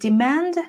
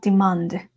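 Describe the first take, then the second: First: It is said with an American pronunciation. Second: It is said with a non-American pronunciation. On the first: "American accent might be demand" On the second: "but I used to pronounce like demand"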